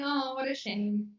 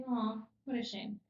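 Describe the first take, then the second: First: Mildly sarcastic, said through a smile; lightly mock-sorry, not meaning it; sarcastic sympathy. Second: Mildly sorry, understated; a touch of sadness for someone's bad luck; sympathetic sadness. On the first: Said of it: "it means you're being very sarcastic". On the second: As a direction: offer sincere, understated sympathy. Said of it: "you have to use your face". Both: Shown as a demonstration.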